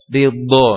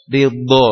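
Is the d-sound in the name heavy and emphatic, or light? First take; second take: heavy; heavy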